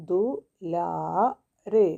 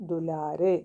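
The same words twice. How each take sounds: First: "ദു", "ലാ", "രേ" each said apart; teacher sounding out "ദു ലാ രേ" with pauses; syllable by syllable. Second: "ദുലാരേ" run together as one word; whole-word reading of "ദുലാരേ"; blended reading. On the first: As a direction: break it into "ദു"... "ലാ"... "രേ". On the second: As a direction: join the syllables smoothly into "ദുലാരേ". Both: Shown as a demonstration. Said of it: "കൂട്ടി വായിക്കുമ്പോൾ".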